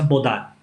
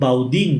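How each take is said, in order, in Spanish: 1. El nombre se dice a la manera francesa, terminando en 'ahn'. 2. El nombre se lee literalmente, terminando en 'een'. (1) "explicándome que se pronuncia Bodán" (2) "yo cometí muchas veces el error de eh, leer el apellido de esta familia como Baudín, nosotros lo leemos textualmente"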